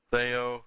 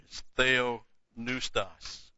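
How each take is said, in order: First: Theopneustos said again at normal speed, a bit louder; Greek word repeated firmly. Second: Theopneustos said very slowly, each Greek syllable laid out; Greek word spelled out. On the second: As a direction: draw out theopneustos syllable by syllable like a teacher. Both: Shown as a demonstration. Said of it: "It's not inspired".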